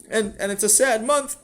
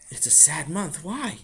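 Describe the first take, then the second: First: Put-on high, insistent child's voice; earnest upset boy. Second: Puzzled father. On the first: Sammy explains the month to his father, high and earnest. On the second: Acted. Father questions Sammy's claim, puzzled. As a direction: repeat it back, then ask, voice lifting.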